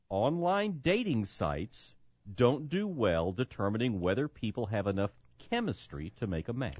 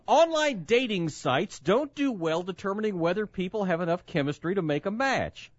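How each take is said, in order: First: It is read slowly. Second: It is read at normal speed.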